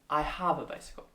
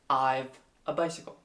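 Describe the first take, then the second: First: 'I have' is said in full. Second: 'I have' is contracted to 'I've'. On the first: The speaker calls it right. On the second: The speaker calls it wrong.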